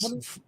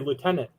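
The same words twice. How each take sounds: First: It is said in the British pronunciation. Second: It is said in a non-British pronunciation. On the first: This is how the other person says it. "You say lieutenant. ... technically the correct British way" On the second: This is how the speaker normally says it. "I say lieutenant"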